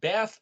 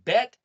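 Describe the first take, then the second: First: The word ends with a TH sound. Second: The word ends with a T sound. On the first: "the T H sound is also the Tav" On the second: "write it as the letter T"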